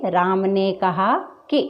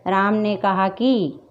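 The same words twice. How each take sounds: First: Slow phrase ending on a short, light "कि"; short final i. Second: "कि" wrongly stretched into a long, stressed "की"; overlong final i. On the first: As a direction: cut the i of "कि" short, no weight on it. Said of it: "वहाँ पर ऐसा होना चाहिए". ("कि" में छोटी इ, बिना ज़ोर) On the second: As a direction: lean on "कि" and draw its vowel out like "की". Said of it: "इतना ज़ोर दे रहे हैं उस पर". ("कि" को खींचकर "की" जैसा बोलें) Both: Shown as a demonstration.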